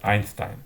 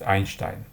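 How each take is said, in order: First: It is pronounced the American way. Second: It is pronounced the German way. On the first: The name is adapted to English. "an American physicist, and his name is pronounced as Einstein" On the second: The name keeps its original form. "Einstein was born in Germany, so we can read his name as Einstein"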